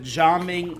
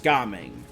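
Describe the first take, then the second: First: The name is said the Mandarin way. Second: The name is said the Cantonese way. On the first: "Jaming is the Mandarin pronunciation" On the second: "the Cantonese pronunciation is Gaming"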